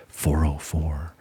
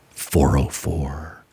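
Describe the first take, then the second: First: Hushed, slow whisper of "four oh four". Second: Low, slow and flat delivery of the error code; slow deadpan. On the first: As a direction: breathe "four oh four" out as a voiceless aside. 404 error again, whispered aside. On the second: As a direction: drop the voice and drag out "four oh four". 404 error, told with deadpan slowness. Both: Retold or imitated.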